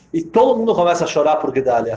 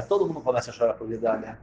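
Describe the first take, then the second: First: Said in the usual way. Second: Much softer and lower, hushed; soft, low echo of the line; hushed repeat. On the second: Acted. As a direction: drop to a hush, letting the grief sink in. Repeated line, second take hushed.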